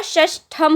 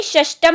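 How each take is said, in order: First: षष्ठम said slowly with aspirated ठ, shashthham; slow and careful, breathe out on the ठ in षष्ठम; correct form. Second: षष्टम said with plain unaspirated ट, shashtam; wrong form. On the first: Teacher giving students the right word, slow aspirated ठ in षष्ठम. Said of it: "षष्ठम होता है". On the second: Teacher showing students the wrong word, plain t in षष्टम. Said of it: "षष्टम नहीं होता". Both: Shown as a demonstration.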